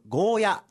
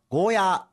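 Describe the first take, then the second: First: The final vowel is short. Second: The final vowel is long. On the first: This is the common way people say it. "よくゴーヤと言われますが" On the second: This is how it is said in Okinawa. "ゴーヤーと伸ばして発音します"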